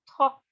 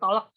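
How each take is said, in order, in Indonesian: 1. Kata itu diucapkan tanpa bunyi L. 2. Kata itu diucapkan dengan bunyi L. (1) "Jadi nggak pakai L tuh" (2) "Bukan tolak"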